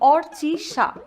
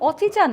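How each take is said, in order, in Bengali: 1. নামটি 'r' ধ্বনি সহ উচ্চারিত হয়। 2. নামটি 'r' ধ্বনি ছাড়া উচ্চারিত হয়।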